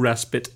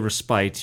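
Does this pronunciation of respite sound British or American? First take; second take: American; British. First: The word is said the common American way. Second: The word is said the way that sounds British. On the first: This is the brewery's own pronunciation. "We pronounce it True Respite" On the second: This is an accepted secondary pronunciation. "So if you say respite, you're not wrong. You just sound British"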